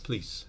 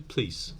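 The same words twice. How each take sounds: First: The p runs straight into the l. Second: The p runs straight into the l.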